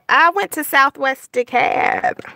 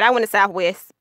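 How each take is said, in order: First: Every word is fully and carefully pronounced. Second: The words are clipped in casual local speech.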